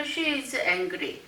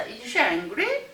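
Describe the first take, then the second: First: Angry falls at the end; falling statement tune. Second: Slow, with angry rising at the end; rising question tune. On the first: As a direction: let angry drop like a statement. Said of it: "평서문은". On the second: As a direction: drag it out and lift angry at the end. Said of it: "올려줘야 됩니다". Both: Shown as a demonstration.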